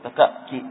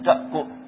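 First: The second k is followed by an 'i' vowel. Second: The second k is followed by a 'u' vowel. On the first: The speaker calls it wrong. "ما نقول تكأكي" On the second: The speaker calls it right. "لكن الكاف هي مضمومة"

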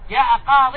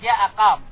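First: The last word ends with a long ee vowel. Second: The last word ends without the final vowel.

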